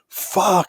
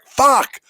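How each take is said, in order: First: It is said in a frustrated, exasperated way. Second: It is said in an angry, upset way. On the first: The speaker is frustrated. "I'm frustrated" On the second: The speaker is upset. "it can show anger. ... upset"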